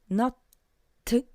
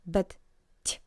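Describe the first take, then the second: First: The t is said hard, without softening. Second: The t is said soft, with softening. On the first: The speaker calls it wrong. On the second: The speaker calls it right. "you can hear that t sounds soft"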